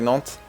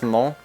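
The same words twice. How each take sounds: First: The final T is pronounced. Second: The final T is silent. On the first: The speaker calls it right. "You should pronounce the T in Nantes" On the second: The speaker calls it wrong. "it's just Nantes"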